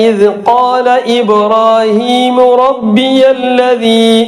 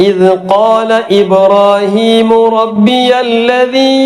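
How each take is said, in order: No difference in how they are said.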